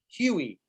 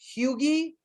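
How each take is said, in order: First: The name is said with no G sound. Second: The name is said with a hard G sound. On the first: The speaker calls it right. "so I don't pronounce the G" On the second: The speaker calls it wrong. "I think it rhymes with Loogie"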